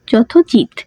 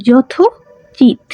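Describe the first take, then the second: First: Said in the usual way. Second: Slow and drawn out. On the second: Shown as a demonstration. Teacher slowly sounds out যথোচিত for students, drawn out. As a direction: stretch যথোচিত out slowly, syllable by syllable. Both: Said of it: "উকার উঠে দিলে".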